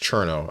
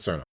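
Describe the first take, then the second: First: The name begins with a CH sound. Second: The name begins with a plain S sound. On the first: The speaker calls it right. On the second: The speaker calls it wrong.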